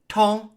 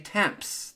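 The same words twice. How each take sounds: First: It ends on a nasal vowel, no consonants. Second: The final consonant letters are pronounced aloud. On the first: The speaker calls it right. "the M, P, and S are completely silent" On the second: The speaker calls it wrong. "do not say temps. That would be wrong"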